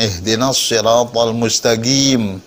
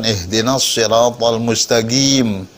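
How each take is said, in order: First: The q in mustaqim sounds almost like a g. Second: The q in mustaqim sounds almost like a g.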